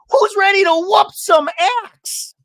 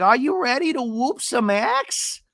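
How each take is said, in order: First: Very high, loud hammed-up holler; Shannon. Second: High, slow mocking echo; Gina. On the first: Imitating her grand entrance at axe throwing, high mock holler. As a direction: belt it slowly as a big entrance line. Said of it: "And Shannon's like". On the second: Imitating a housewife echoing the axe joke, high mock voice. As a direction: drag it out high without shouting. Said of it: "And Gina's like".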